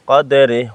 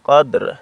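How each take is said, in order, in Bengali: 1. শব্দটি একটি হ্রস্ব স্বরধ্বনিতে শেষ হয়। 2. শব্দটি একটি খালি ব্যঞ্জনধ্বনিতে শেষ হয়। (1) "ররজের রে" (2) "ওয়াকফা করিলে কদর"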